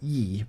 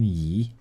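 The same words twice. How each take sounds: First: The syllable has a sharply falling tone. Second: The syllable has a rising tone. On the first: The speaker calls it wrong. "not the fourth tone. I was playing Lian Yi, but like no" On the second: The speaker calls it right. "it's the second tone"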